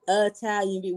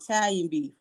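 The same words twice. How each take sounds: First: The first vowel of the word is pronounced. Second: The first vowel of the word is dropped. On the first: This is how outsiders say it. "we don't call it Italian beef" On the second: This is how locals say it. "We don't pronounce the I"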